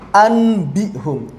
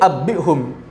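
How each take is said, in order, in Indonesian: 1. Huruf n diucapkan sebelum b. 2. Huruf n menyatu menjadi b ganda. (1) "Nun bertemu dengan ba diucapkan bersamaan susah" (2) "kalau dirapatkan jadi abbihum"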